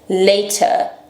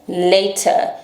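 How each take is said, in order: First: The middle consonant is a clear t. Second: The middle consonant is a clear t.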